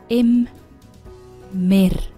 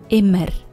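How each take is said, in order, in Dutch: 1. Het woord wordt in twee aparte lettergrepen gesplitst. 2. Het woord wordt vloeiend als één geheel uitgesproken.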